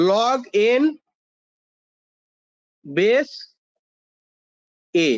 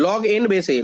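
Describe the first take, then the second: First: Word-by-word, long pauses between words; slow, spaced-out dictation for note-taking. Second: "log n base a" run together as one phrase; pronunciation demo. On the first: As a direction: dictate "log ... n ... base ... a" with big gaps. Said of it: "লিখে নাও এটা". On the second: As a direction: say "log n base a" in one connected flow, falling at the end. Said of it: "pronounce এইভাবে করি". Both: Shown as a demonstration.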